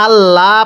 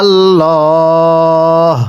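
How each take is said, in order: First: Said in the usual way. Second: আল্লাহ with a full, heavy, slow ল; heavy Allah. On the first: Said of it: "এটাকে আল্লাহ পড়া যাবে না". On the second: Shown as a demonstration. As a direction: draw out আল্লাহ thick and long. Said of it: "আল্লাহ শব্দটিকে মোটা করে পড়তে হয়".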